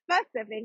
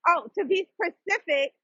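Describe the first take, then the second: First: Specific said with a clear s-p start, not Pacific; correcting specific, not Pacific; careful specific. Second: Careful over-pronounced specific. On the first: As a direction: land the spe of specific deliberately. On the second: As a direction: sound out specific with a clear s-p start. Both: Shown as a demonstration. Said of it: "not Pacific".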